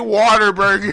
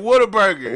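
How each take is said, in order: First: The first part sounds like 'water', with an R. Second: The first part keeps the A sound, 'what a'. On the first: "We add an E R where it's an A" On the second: "to keep the A"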